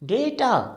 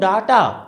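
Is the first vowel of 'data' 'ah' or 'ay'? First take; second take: ay; ah. First: The first vowel is an ay sound. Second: The first vowel is an open ah sound. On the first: The speaker calls it right. "We would pronounce it डेटा" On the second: The speaker calls it wrong. "अगर आप इसको बोलते हो डाटा, तो काम खत्म, rejection"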